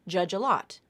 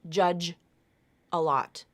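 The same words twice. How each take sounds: First: The J sound runs straight into the vowel. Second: The J sound stays apart from the vowel. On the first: The speaker calls it right. "So it sounds like this" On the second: The speaker calls it wrong. "It's not judge a lot"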